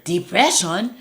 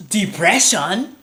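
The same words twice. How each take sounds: First: Put-on high incredulous African accent; doubtful African accent. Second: Put-on high, slow questioning African accent; incredulous African accent. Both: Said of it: "my best impression of an African person".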